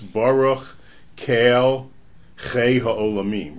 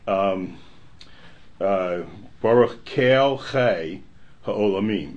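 First: The phrase breaks after 'Kel'. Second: The phrase breaks after 'chei'. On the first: The speaker calls it right. "It's Baruch Kael Chei Ha'olamim, right?" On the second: The speaker calls it wrong. "it's not Baruch Kael Chei Ha'olamim"

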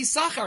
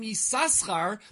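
First: The name has no extra s sound in the middle. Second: The name has an extra s sound in the middle. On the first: The name has lost a letter. "it's only Yisachar. His name was changed. He lost a sin" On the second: The name still has its original letter. "they would say the name Yisaschar until our Parsha"

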